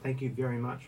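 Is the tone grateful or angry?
grateful. It sounds warm and grateful.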